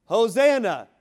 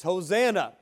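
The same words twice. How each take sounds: First: Hosanna shouted out, much higher and louder; shout of praise. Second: Raised, ringing Hosanna, higher and louder; exclamation of praise. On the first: Preacher crying out praise to the King, full shout. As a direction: cry Hosanna at the top of your voice. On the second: Preacher showing the church how to praise, loud exclamation. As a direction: call out Hosanna with rising joy. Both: Shown as a demonstration. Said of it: "There should be an exclamation of praise".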